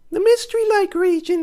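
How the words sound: It is said in an odd, put-on voice.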